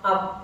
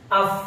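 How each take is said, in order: First: It ends with a closed p sound. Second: It ends with a breathy f sound. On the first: The speaker calls it wrong. "jadi bukan ap" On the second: The speaker calls it right.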